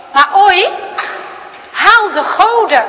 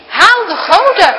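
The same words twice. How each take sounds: First: Put-on loud, high, stern old grandfather calling out; grandpa's stern command. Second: Loud, high, stern order; grandpa's stern command. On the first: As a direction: bark the order across the dinner table. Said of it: "klinkt ineens opa's stem". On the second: Acted. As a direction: bark the order again. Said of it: "klinkt het opnieuw".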